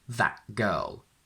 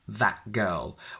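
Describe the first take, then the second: First: The t in 'that' is a glottal stop. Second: The same.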